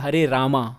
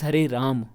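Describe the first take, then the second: First: The last word ends with an open vowel. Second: The last word ends on a closed consonant. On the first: The speaker calls it wrong. "it's not Hare Rama" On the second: The speaker calls it right. "it's Hare Ram. The ma is closed"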